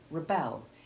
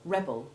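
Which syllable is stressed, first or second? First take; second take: second; first. First: The stress is on the second syllable. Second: The stress is on the first syllable. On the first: It is the verb. "the verb rebel, in which the second syllable, now stressed" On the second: It is the noun. "the noun rebel, which has short E one followed by short E two"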